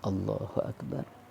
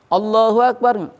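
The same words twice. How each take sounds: First: It is said softly, barely audible. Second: It is said loudly, almost shouted. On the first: Only the worshipper himself hears it. The speaker calls it right. "terdengar oleh sendiri aja" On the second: The follower calls out as loudly as the leader. The speaker calls it wrong. "sok tarik-tariknya"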